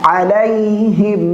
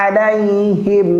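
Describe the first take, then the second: No difference in how they are said.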